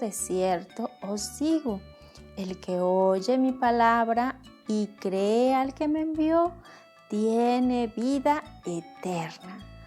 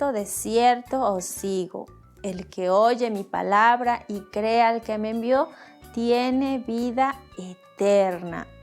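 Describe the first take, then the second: First: It is read in a low voice. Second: It is read at normal loudness.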